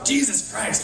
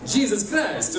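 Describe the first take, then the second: First: It is said in the speaker's ordinary accent. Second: It is said in a put-on Italian accent.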